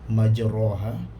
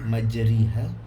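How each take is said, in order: First: The vowel after r sounds like an open a. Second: The vowel after r sounds like an i. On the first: "Tidak menjadi ra majraha" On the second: "tidak menjadi majriha"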